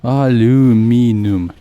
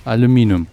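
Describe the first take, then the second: First: "Aluminum" stretched slowly, a-LOO-MEE-num; drawn-out pronunciation. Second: Said in the usual way. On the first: Shown as a demonstration. Gamer testing the other version of the word, slow syllable-by-syllable pronunciation. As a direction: draw out each syllable of "Aluminum", no ee before -num. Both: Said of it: "You say, like, aluminium".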